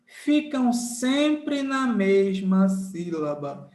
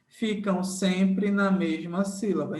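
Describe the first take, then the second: First: SEMPRE NA MESMA SÍLABA drawn out at half speed; emphatic slow rule. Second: Said in the usual way. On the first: Shown as a demonstration. Teacher drills digraph rule into students, slow and emphatic. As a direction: spell out "sempre na mesma sílaba" slowly, word by word.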